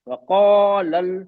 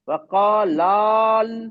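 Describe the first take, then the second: First: The vowel before the final L is short. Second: The vowel before the final L is long. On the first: The speaker calls it right. "हम पढ़े वक़ालल" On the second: The speaker calls it wrong. "हम ऐसा नहीं पढ़ेंगे वक़ालाल"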